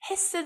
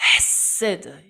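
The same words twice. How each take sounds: First: The first sound is a light, plain h. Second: The first sound is a throaty h from the chest. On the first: The speaker calls it wrong. "이게 아니고" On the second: The speaker calls it right. "이 가슴부터 끌어올리셔야 되는 그런 어, 발음을 그렇게 하셔야 돼요. ... 이렇게"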